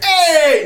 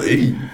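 First: It is a warm, friendly greeting. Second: It is a cold, flat greeting.

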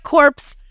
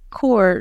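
First: The word ends with a clear P sound. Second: The word ends without a P sound. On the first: The speaker calls it wrong. "You're like corpse" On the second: The speaker calls it right. "I don't think he pronounced the P. I think it's just corps"

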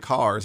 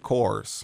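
First: The vowel sounds like the 'ar' in car. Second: The vowel sounds like the 'or' in core. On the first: This is the usual way of saying it. "They don't say cars" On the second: This is the Northeast Portland slang way of saying it. "they say cores"

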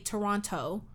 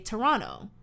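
First: The final T sound is clearly pronounced. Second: The final T sound is dropped, sounding like 'Toronno'. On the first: This is how non-Canadians say it. "you don't say Toronto" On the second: This is how Canadians say it. "we say Toronto, like N-N-O"

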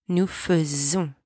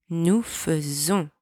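Both takes have the same delivery.

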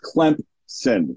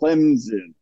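First: A voiceless p sound follows the m. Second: No p sound follows the m. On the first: The speaker calls it right. "Clemson with a p in there. There's a P voiceless inserted in that word" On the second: The speaker calls it wrong. "so many other people went Clemson. What are you doing?"

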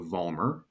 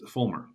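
First: The name begins with a V sound. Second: The name begins with an F sound. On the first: The speaker calls it wrong. "I've been mispronouncing my name for my entire life" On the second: The speaker calls it right. "in Germany, it's Fulmer"

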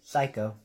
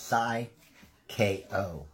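First: The name is said in two syllables: psycho. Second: The name is said in three parts: sigh-kay-oh. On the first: The speaker calls it wrong. "Or how you guys say it" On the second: The speaker calls it right. "It's Psy K-O"

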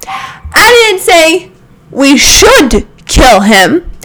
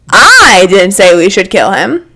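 First: The stress falls on the word 'should'. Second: The stress falls on the word 'I'.

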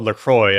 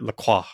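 First: The name is said in an American way. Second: The name is said in a French way.

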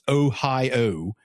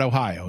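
First: The O sounds are long and drawn out. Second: The O sounds are short and plain. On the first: This is how people say it around Pittsburgh. "It's Ohio" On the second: This is how people say it elsewhere. "not Ohio"

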